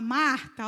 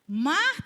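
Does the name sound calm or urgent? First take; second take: calm; urgent. First: The name is said in a calm, unhurried way. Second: The name is called out with urgency. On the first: The caller feels no urgency. The speaker calls it wrong. "ele não fala Marta, ó, não" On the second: The caller is pressing and concerned. The speaker calls it right. "olha aí a urgência"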